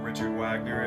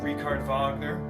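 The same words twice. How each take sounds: First: The name is said plainly, without the accent. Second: The name is said with a foreign accent.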